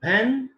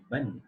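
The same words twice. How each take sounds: First: "When" high with full short E; strong "When"; strong form of when. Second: "when" reduced and soft; weak "when"; weak form of when. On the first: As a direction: stress "When" and rise on it. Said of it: "short E". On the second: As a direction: murmur "when" with a schwa. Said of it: "the weak forms". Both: Shown as a demonstration.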